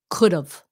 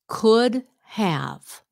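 First: The words are run together as one contraction. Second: The two words are said in full. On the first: "becomes could have" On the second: "Could have becomes"

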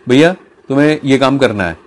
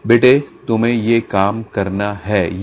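First: It is said plainly in a normal voice. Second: It is said in a low, serious voice.

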